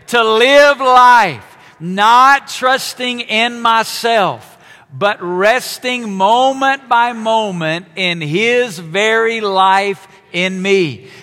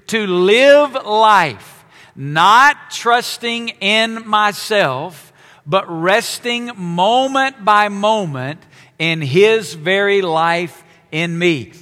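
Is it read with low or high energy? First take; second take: high; low. First: It is read with high, lively energy. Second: It is read with low, early-morning energy.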